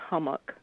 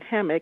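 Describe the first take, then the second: First: The first syllable sounds like 'hum'. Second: The first syllable sounds like 'ham'. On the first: This is how local people say the name. "the people here pronounce it hummock" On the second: This is the form seen on signs and in books. "although the name is Hog Hammock"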